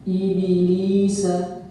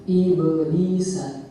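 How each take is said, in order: First: The bounce after b takes an i vowel. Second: The bounce after b stays neutral, without a vowel. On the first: The speaker calls it wrong. "Qalqalah pada huruf ba itu terbawa dengan harokat kasrah. Nah, ini bacaan yang keliru" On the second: The speaker calls it right. "Bacaan yang benar adalah"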